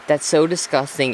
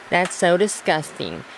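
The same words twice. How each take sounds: First: It is said in her normal voice. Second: It is said in a put-on mocking voice.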